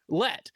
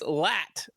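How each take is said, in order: First: The vowel is not the 'a' of lat. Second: The vowel is the 'a' of lat. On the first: The speaker calls it wrong. "tells me I'm butchering it" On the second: The speaker calls it right. "It's Lat, L A T, like your muscle"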